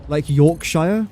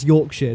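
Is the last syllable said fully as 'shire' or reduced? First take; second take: full; reduced. First: The last syllable is a full 'shire'. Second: The last syllable is reduced to 'shuh'. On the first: The speaker calls it wrong. "they always say Shire" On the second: The speaker calls it right.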